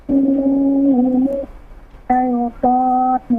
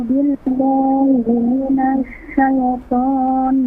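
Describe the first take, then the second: Both takes have the same delivery.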